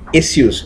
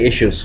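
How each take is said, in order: First: The word is pronounced the British way. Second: The word is pronounced a non-British way. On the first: "these Britishers, they always say issues" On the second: "they don't say issues"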